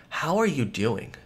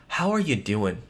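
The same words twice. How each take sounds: No difference in how they are said.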